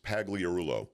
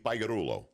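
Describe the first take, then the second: First: The G sound in the name is pronounced. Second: The G sound in the name is silent. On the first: This is the English way of saying the name. "five syllables in English. It's Pagliarulo" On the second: This is the Italian way of saying the name. "But in Italian, you don't pronounce the G"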